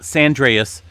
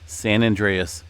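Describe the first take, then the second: First: The two words are blended into one quick word. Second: The two words are said clearly and separately. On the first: The speaker calls it wrong. "Not Sandreas" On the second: The speaker calls it right.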